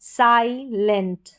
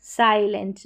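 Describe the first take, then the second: First: साइलेंट बहुत धीरे, साइ खुला; साइलेंट को खींचकर बोलें; slow clear demo. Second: Said in the usual way. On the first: Shown as a demonstration. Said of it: "आई को यहाँ पर आई पढ़ेंगे". (साइलेंट धीमे साफ उच्चारण में)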